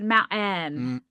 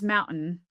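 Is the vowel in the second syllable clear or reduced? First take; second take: clear; reduced. First: The second-syllable vowel is clearly pronounced after the glottal stop. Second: The second-syllable vowel is reduced after the glottal stop. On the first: "that vowel that's in that second syllable that became a little more articulated" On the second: "not just"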